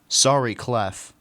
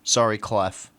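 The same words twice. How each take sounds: First: It is said warmly, with real emotion. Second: It is said flatly, like a robot voice.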